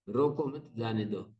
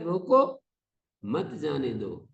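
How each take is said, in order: First: There is a pause after the second word. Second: There is a pause after the first word. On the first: "रोको मत, यहां यति लगाएंगे" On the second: "यदि रोको के ऊपर यति लगा दिया"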